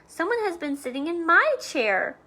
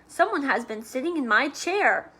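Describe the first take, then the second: First: It is said in a medium-sized voice. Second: It is said in a big, deep voice.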